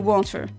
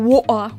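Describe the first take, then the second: First: It is said in a non-British accent. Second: It is said in a British accent.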